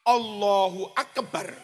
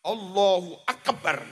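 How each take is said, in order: Both takes have the same delivery.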